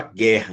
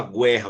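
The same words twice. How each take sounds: First: "guerra" said correctly as "gérra", with a silent U; right way. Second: "guerra" said wrongly as "gwerra", with the U sounded. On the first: Teacher showing students the correct way: "guerra" pronounced "gérra". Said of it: "você fala guerra". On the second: Teacher showing students the wrong way: "guerra" pronounced "gwerra". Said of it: "você não fala guerra". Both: Shown as a demonstration.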